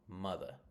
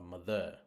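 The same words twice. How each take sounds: First: The stress is on the first syllable. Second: The stress is on the second syllable. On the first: The speaker calls it right. "the stressed syllable is on the m" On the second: The speaker calls it wrong. "It's not"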